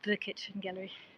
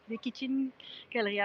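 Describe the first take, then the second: First: It is said in a plain English accent. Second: It is said in a mock French accent. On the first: "Instead of calling it the kitchen gallery" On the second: "I'm no good with accents"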